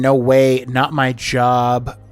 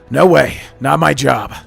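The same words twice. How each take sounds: First: The line is said in a plain voice. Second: The line is said in a meaner voice. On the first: The speaker calls it wrong. "this is not the voice" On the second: The speaker calls it right. "That's a little closer"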